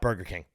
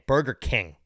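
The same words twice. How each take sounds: First: The stress falls on the word Burger. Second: The stress falls on the word King. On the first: The speaker calls it wrong. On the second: The speaker calls it right. "I'm putting the emphasis on the King"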